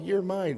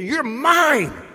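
First: It is said in an offhand, casual way. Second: It is said in a fierce, intense way. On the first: The claim is made half-heartedly. The speaker calls it wrong. "I don't say, oh, well" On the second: The claim is made with passionate possessiveness. The speaker calls it right. "I hear that as fierce"

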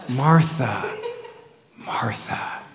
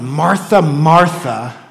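First: It is said in a gentle, compassionate tone. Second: It is said in a harsh, scolding tone.

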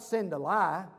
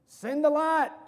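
First: The final t sound is dropped. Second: The final t sound is clearly pronounced. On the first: It sounds like sending a lie. The speaker calls it wrong. "It's not send a lie" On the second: It clearly means sending the light. The speaker calls it right. "It's send the what?"

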